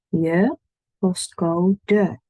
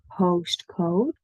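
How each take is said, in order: First: The final e is pronounced. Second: The final e is silent. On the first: The speaker calls it right. "because we do like our E's" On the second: The speaker calls it wrong. "But not postcode"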